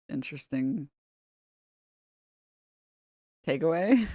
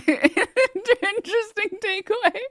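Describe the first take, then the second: First: Said in the usual way. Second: High, slow sarcastic "Interesting takeaway"; mocking high repeat. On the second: Real, not acted. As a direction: stretch it out in mock amazement.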